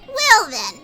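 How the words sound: It is said in a put-on character voice.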